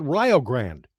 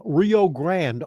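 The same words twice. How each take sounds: First: Rio said Rye-oh, Grande said Grand; Ohio local pronunciation. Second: Rio Grande said slowly as the famous river is, Ree-oh Grand; the outsider's Rio Grande, drawn out; Rio Grande the usual way. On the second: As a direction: Rio Grande as most of the country says it. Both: Shown as a demonstration. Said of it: "That's not how we say it here in Ohio".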